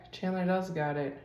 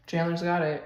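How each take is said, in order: First: "does" leaned on, emphatic agreement; stress on does. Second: Said in the usual way. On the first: Shown as a demonstration. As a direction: hit the word "does". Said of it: "and I agree".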